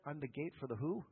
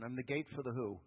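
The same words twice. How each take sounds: First: Rising question on "who"; teasing the crowd with "who?"; quizzing question. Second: "gate" punched, falling at the end; pointed rereading, "gate" stressed. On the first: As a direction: lift "who" up as a quiz to the congregation. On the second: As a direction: lean hard on "gate", let it drop. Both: Shown as a demonstration. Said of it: "Look at verse seven".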